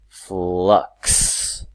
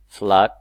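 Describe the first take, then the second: First: The word ends with a K then S sound. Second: The word ends with only a K sound. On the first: The speaker calls it right. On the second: The speaker calls it wrong.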